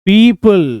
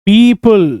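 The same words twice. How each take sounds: No difference in how they are said.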